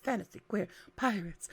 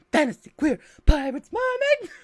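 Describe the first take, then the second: First: Said in the usual way. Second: Excited pitch. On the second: Shown as a demonstration. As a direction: sell it like the best combo ever.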